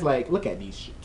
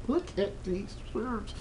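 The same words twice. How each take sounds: First: Said in the usual way. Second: Softer, slower, higher hush; hushed admiring. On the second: Shown as a demonstration. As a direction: breathe it out in awe.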